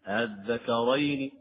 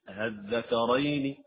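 Both takes have the same delivery.

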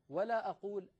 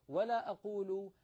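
The two takes are said the same way.

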